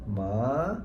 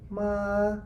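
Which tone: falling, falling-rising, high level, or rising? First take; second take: falling-rising; high level. First: The pitch dips low, then rises again. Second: The pitch stays high and level. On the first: "from the, the high to the low and then go back to high, so it's like ma" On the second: "the high level tones is like ma"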